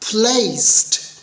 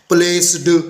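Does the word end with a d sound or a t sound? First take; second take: t sound; d sound. First: The word ends with a t sound. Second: The word ends with a d sound. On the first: The speaker calls it right. "देखा आखिरी sound क्या हुई, ट type की" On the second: The speaker calls it wrong. "ये भी गलत हो गया"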